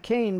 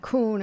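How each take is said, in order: First: The vowel sounds like 'ay'. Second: The vowel sounds like 'oo'. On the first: The speaker calls it right. "it would be Kane" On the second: The speaker calls it wrong. "in German it wouldn't be Kuhn"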